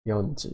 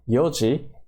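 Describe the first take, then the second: First: An n sound comes before ji. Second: There is no n sound before ji. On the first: The speaker calls it wrong. "instead of yonji" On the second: The speaker calls it right. "we say it instead of yonji"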